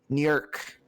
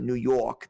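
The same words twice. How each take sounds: First: It has an odd, vaguely Jamaican upstate accent. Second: It has an ordinary, non-upstate New York accent. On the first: "They say New York. It's fucking bizarre" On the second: "they don't say New York"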